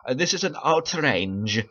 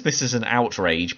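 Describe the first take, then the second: First: "outrage" said slowly as "outrange", with a hesitant "Uh" first; mock mispronunciation. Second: Said in the usual way. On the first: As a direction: imitate her stilted Spanish-tinged "outrage", drawn out like "outrange". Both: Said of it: "but it sounds like she said".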